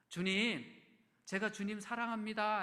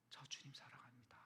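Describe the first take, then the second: First: Loud declaration. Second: A secret vow, whispered; whispered confession. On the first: Pastor voicing Peter to Jesus, loud declaration. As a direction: proclaim it loud to the whole room. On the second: Pastor confessing his love to Jesus, in a whisper. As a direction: breathe it, barely a whisper. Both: Retold or imitated.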